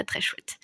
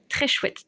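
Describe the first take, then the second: First: Hushed, voiceless admiration; whispering. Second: Said in the usual way. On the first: Acted. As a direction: whisper the praise, no voice. Repeats praise, then whispers it.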